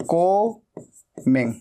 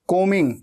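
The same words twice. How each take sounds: First: कोमिंग said slowly with no b sound; कोमिंग drawn out slowly, b silent; silent b in combing. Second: Said in the usual way. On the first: Shown as a demonstration. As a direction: stretch out कोमिंग, dropping the b. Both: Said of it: "ऐसे बोलना है".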